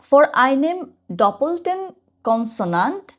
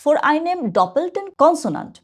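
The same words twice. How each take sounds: First: Slow re-reading. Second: Slow reading aloud. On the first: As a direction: reread the phrase very slowly with a rising end. (আবার ধীরে ধীরে পড়া) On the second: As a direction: read the rule very slowly, pitched higher. (ধীরে ধীরে জোরে পড়ে শোনানো) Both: Shown as a demonstration. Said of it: "ওখানে কি লেখা?".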